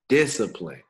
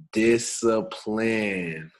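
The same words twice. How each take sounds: First: Said in the usual way. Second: Discipline, said very slowly, syllable by syllable; drawn out word. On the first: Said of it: "Three syllables". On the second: Shown as a demonstration. Host slowly sounding out the topic word. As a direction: stretch out discipline like a big word. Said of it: "Did I say that right?".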